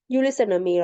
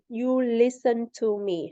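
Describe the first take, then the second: First: The T in "to" is dropped after the N. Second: The T in "to" is clearly pronounced. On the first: "She said" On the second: "She didn't say"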